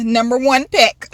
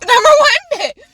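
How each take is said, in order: First: Said in the usual way. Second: Laughing, high and loud; number one pick, yelled through a laugh; laughing shout. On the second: Real, not acted. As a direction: burst out laughing on the repeat.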